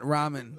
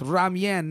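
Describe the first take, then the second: First: Ramen is pronounced the Western way. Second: Ramen is pronounced the Asian way. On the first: The speaker calls it wrong. "not ramen" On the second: The speaker calls it right.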